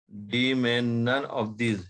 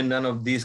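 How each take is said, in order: First: "none of these" drawn out word by word; slow dictation. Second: Said in the usual way. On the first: Real, not acted. Teacher dictating option D to students, slow dictation. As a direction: say "none of these" slowly for note-takers. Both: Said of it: "मैं बहुत धीरे धीरे बोल रहा हूँ".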